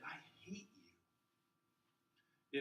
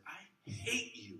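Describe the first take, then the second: First: Weak hate. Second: Slow, higher, cutting; a mock hateful line; meant hatred. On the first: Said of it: "might not have the same power". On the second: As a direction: spit it out slowly like you mean it. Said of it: "as if I said". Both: Shown as a demonstration.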